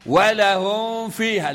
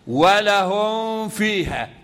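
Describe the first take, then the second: First: ولهم with the م hummed too long before و; wrong over-nasal ghunna. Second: ولهم with the م held only for its natural ghunna before و; correct ghunna. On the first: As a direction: overdo the nasal hum on the م of ولهم. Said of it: "لا خطأ". (إطالة غنة الميم في ولهم خطأً) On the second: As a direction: keep the م in ولهم lightly nasal, no extra hum. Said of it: "ما حدش بقى يقرأ خطأ". (نطق الميم في ولهم بغنة أصلية فقط) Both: Shown as a demonstration.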